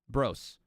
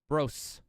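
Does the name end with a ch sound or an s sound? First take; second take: s sound; s sound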